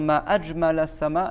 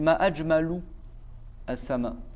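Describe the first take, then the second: First: The word ajmal ends with an a vowel. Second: The word ajmal ends with a u vowel. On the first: How beautiful the sky is. The speaker calls it right. "Au lieu de dire" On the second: What is the most beautiful thing in the sky? The speaker calls it wrong. "elle a dit"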